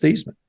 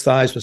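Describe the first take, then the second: First: "Theismann" said THEES-man, long e as in "see"; correcting him: "Theismann" as THEES-man; Thees-man pronunciation. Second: "Theismann" said THIGHS-man, rhyming with Heisman; Thighs-man pronunciation. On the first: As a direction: insist on "Theismann" with an ee sound. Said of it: "No, it's pronounced". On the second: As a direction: say "Theismann" with the vowel of "eye". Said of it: "No, it's Theismann". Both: Retold or imitated.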